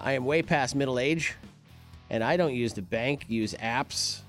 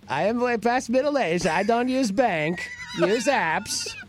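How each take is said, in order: First: It is read in his normal voice. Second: It is read in a Borat impression.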